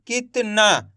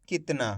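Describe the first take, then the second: First: कितना sounded out slowly, piece by piece; broken into syllables. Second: Said in the usual way. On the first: Shown as a demonstration. Teacher sounding out the spelling for learners, syllable by syllable. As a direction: stretch कितना into its separate sounds. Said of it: "उसके बाद कित". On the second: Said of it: "तो मिलके बन गया".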